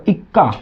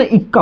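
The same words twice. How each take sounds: First: इक्का said as ekka, with an open e at the start; wrong pronunciation. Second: इक्का said as ikka, with a short i at the start; correct pronunciation. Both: Shown as a demonstration. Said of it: "इक्का नहीं होता".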